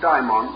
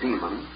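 First: It has the Greek-style pronunciation. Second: It has the familiar English pronunciation. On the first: It names a secondary deity or spirit. "and the Greek form daimon or daemon" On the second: It names an evil spirit. "calling one our familiar term, the term demon"

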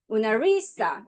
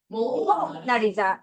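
First: The stress is on the third syllable. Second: The stress is on the first syllable. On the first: "세 번째" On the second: "제일 앞에 강세 줘볼 거야"

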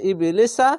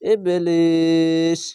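First: It ends in a vowel, with a short middle vowel. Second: It ends in a consonant, with a long middle vowel. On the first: The reading continues without stopping. "এরকম পড়বে" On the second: The reader stops at this word. "আর যদি থামলে এরকম সাকিন এই সিনের ওপর দিয়ে তিন আলিফ টান হবে"

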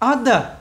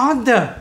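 Both takes have the same delivery.

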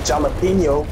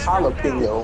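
First: The word begins with a hard J sound. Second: The word begins with an H sound. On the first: The speaker calls it wrong. "It's not pronounced jalapeno" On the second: The speaker calls it right. "it's pronounced jalapeno"

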